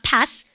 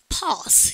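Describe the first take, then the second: First: It has the American flat front vowel. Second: It has the British broad 'ah' vowel.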